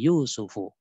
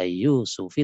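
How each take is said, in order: First: The name ends with a u vowel. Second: The name ends with an i vowel. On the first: The speaker calls it right. "tapi Yusufu. Karena dia fa'il" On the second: The speaker calls it wrong. "tidak dibaca Yusufi"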